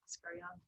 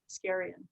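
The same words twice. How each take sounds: First: The name is said with its original, non-English pronunciation. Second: The name is said with an English-style pronunciation. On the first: The speaker calls it right. "but Ascarian" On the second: The speaker calls it wrong. "we all anglicize it, and everyone says Ascarian"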